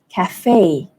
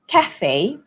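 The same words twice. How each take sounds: First: The stress is on the second syllable. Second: The stress is on the first syllable. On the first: "in American English, the stress falls on the second syllable" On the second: "in British English, it would be cafe, cafe, so the stress falls on ca"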